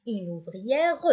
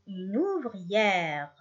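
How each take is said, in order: First: Une ouvrière with an extra "ruh" at the end; wrongly voiced final E. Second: Une ouvrière ending on the R, slowly; silent final E. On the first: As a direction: say ouvrière ending in a sounded "-reu". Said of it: "ما نقولش". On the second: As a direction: say une ouvrière with the last E mute. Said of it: "شفتوا ما نقولش". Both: Shown as a demonstration.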